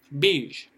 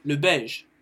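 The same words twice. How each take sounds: First: Beige said as "beezh", long I vowel; English variant pronunciation. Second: Said in the usual way. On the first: Shown as a demonstration. Teacher contrasts it with French, Beige pronounced "beezh". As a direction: say Beige with an "ee", falling tone. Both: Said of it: "ne prononce pas la même chose".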